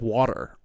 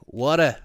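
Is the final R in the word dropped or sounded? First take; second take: sounded; dropped. First: The final R is clearly sounded. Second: The final R is dropped, Australian style. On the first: "she said it like with a hard R" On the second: "Australians say it like water"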